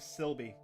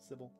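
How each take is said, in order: First: It has an extra L sound before the V. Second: It has no L sound before the B. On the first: The speaker calls it wrong. "I was adding an extra L in there" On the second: The speaker calls it right. "There's no L after the Y"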